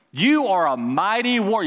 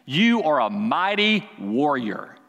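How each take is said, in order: First: Higher and louder, ringing out; proclaimed. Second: Slow and measured, each word weighed; slow declaration. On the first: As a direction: proclaim it to the room. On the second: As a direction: lay it down slowly. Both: Shown as a demonstration.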